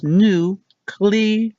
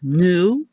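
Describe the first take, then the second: First: "nuclear" said nuke-lee-er; "nuclear" with the clear lee-er ending; carefully corrected nuke-lee-er; correct pronunciation. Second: "nuclear" said nuke-yuh-ler; "nuclear" with the ending turned into yuh-ler; the familiar wrong version, nuke-yuh-ler; common mispronunciation. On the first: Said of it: "How to actually say it is". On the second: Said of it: "What we've been saying is". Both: Shown as a demonstration.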